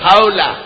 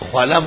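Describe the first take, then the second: First: The first vowel sounds like 'aw'. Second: The first vowel sounds like 'oo'. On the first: The speaker calls it right. "خاولا لفظ ہے خاولا" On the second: The speaker calls it wrong. "خولا مت کہو"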